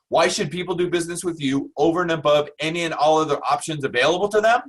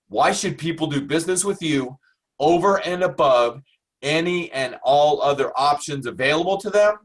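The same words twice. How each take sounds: First: It is said at a faster pace. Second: It is said at a slower pace.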